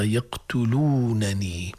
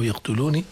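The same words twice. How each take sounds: First: Slow "يقتلونني" as yaqtuluunanii; original two nuns. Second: "يقتلوني" as yaqtuluni, one n, final i; single protective nun. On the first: Teacher restores the original form, drawn-out "يقتلونني". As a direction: stretch uu, then both n's of "يقتلونني". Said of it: "وإلا أصلها". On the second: Teacher explains the nun, "يقتلوني" with single n. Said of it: "هذه نون الوقاية". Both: Shown as a demonstration.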